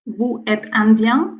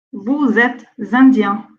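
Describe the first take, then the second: First: Vous êtes indien said as vu ɛt ɛ̃djɛ̃, no z after vous; no liaison. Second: Vous êtes indien linked as vou-z-êtes, slowly; liaison. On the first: Teacher giving the wrong version to avoid. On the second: Teacher modeling the correct linking, slowly. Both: Shown as a demonstration. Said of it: "On dit pas".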